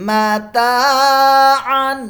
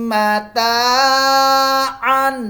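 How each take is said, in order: Both takes have the same delivery.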